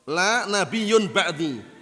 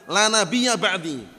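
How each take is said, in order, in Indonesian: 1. Kata tengah berakhir dengan 'un'. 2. Kata tengah berakhir dengan 'a' pendek. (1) "Mereka ubah bacanya bukan la nabiyya, la nabiyyun" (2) "La nabiyya bacanya"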